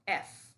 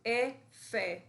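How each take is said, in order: First: The letter name is cut short, ending in a consonant. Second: The letter name is said complete, ending in a vowel. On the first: The speaker calls it right. "se queda a mitad y no la pronunciamos completa, sino que la corto" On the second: The speaker calls it wrong. "en vez de decir E, F"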